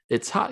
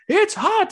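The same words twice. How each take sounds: First: It is said flat, in a monotone. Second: It is said with lively, expressive intonation. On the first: The speaker calls it wrong. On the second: The speaker calls it right.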